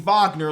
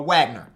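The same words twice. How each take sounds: First: The name is pronounced the European way. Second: The name is pronounced the American way. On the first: The speaker calls it wrong. "It's not going to be Wagner like Mo in France" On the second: The speaker calls it right. "So I'm guessing he's American. So his name is going to be uh, uh, Wagner, like Dewan Wagner"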